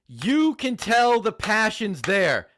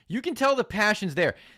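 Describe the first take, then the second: First: It is said in a put-on sassy voice. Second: It is said in his normal voice.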